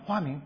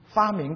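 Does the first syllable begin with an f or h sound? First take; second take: h; f. First: The first syllable begins with an h sound. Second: The first syllable begins with an f sound.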